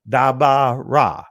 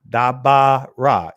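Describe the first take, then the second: First: The stress is on the middle syllable. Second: The same.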